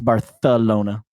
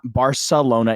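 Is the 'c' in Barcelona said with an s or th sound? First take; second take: th; s. First: The c is said as a lisped th sound. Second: The c is said as a plain s sound. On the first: The speaker calls it right. "they don't say C's, they say T H" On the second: The speaker calls it wrong. "it's not Barcelona"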